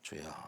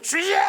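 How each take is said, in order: First: It is said quietly and calmly. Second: It is shouted loudly and forcefully.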